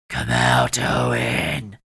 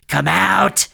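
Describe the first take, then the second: First: Very low, loud growl; deep monster command. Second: High, loud beastly yell; monster's shouted command. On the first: Rat beast summons Owen, growling deep. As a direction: drop into a deep beastly roar. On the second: Rat beast summons Owen, yelling high. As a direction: roar the order upward. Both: A narrator's reading.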